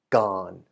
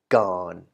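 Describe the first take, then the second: First: The syllable is said with a low tone. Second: The syllable is said with a low tone.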